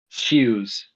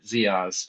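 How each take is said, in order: First: The name is said like 'Shoes'. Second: The name is said like 'Ziaz'. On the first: This is how it is said in his native tongue. The speaker calls it right. "in his native tongue" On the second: This is how most readers would guess it. The speaker calls it wrong. "most people would see it and pronounce it Ziaz"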